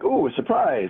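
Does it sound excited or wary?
excited. It sounds excited and pleased.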